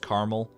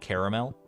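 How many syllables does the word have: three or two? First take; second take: two; three. First: The word is said with two syllables. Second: The word is said with three syllables. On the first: "are you a two syllable" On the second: "or a three syllable"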